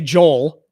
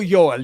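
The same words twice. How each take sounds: First: The name is said with English pronunciation. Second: The name is said with guessed Norwegian pronunciation. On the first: "in English we'd say Joel" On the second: "I'm gonna go Joel"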